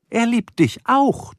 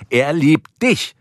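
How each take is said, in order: First: Slow, high-pitched insistence landing on "auch"; "auch" stretched and pitched up as the key word; stress on auch. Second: Slow, high insistence landing on "dich"; "dich" stretched and pitched up for emphasis; stress on dich. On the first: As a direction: lean on "auch", drawn out and rising. Corrects herself to include John too. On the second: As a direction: lean hard on "dich", drawn out and rising. Insists the dog loves him. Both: Acted.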